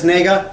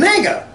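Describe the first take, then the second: First: First tone contrast. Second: "nega" said with a high, swooping tone; second tone contrast. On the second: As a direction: lift "nega" high, then let it drop. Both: Shown as a demonstration. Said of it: "a different tone".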